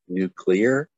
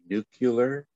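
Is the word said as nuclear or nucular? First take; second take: nuclear; nucular. First: The word is said like nu-cle-ar. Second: The word is said like nu-cu-lar. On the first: The speaker calls it right. "I said actually nuclear" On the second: The speaker calls it wrong. "I didn't say nuclear"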